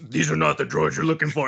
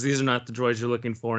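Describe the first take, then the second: First: It is said in a deep Batman voice. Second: It is said in a normal voice.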